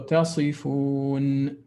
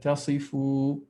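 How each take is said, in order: First: The final n sound is clearly pronounced. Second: The final n sound is dropped. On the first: The speaker calls it right. "I wanted you to pronounce the noon clearly" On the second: The speaker calls it wrong. "I had the impression that you just said tasifu"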